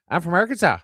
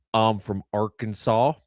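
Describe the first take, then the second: First: Higher, louder Newfoundland accent. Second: Slow Southern drawl; slow Southern accent. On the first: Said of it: "speed up how fast I say it and put it in a higher voice". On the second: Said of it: "is an octave lower and twice as slow". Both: Shown as a demonstration.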